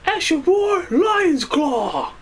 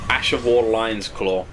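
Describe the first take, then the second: First: It is shouted in a dramatic hero voice. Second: It is read out in a plain voice.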